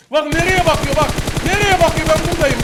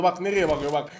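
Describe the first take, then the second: First: Louder repeat. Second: Said in the usual way. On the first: Real, not acted. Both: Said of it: "repeated louder".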